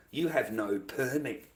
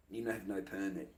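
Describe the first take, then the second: First: Slow, deliberate stating of the rule; emphatic rule. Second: Dropped, muttered aside; softer repeat. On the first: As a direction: lay down the rule slowly. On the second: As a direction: say it again under your breath. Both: Shown as a demonstration. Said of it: "repeats softer".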